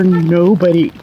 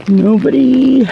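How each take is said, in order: First: Said in the usual way. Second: "nobody" said higher, louder and slowly drawn out; emphatic repeat. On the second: Real, not acted. Telling viewers that nobody explains cancer, stressing "nobody" higher, louder and slower. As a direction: lean hard on the second "nobody".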